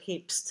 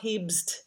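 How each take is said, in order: First: The b before the s is voiceless. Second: The b before the s is voiced. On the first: The speaker calls it right. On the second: The speaker calls it wrong.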